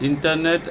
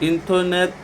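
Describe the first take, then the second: The two takes are said the same way.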